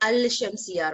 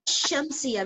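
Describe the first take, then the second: First: The L of the article is clearly pronounced. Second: The L of the article is not pronounced. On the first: The speaker calls it wrong. "we don't say Al-Shamsiya" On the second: The speaker calls it right. "when we say Shamsiya"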